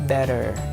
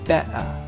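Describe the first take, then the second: First: The T is said the American way. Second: The T is said the informal British way. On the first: "In American accent, they pronounce it like" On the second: "the second one is informal pronunciation"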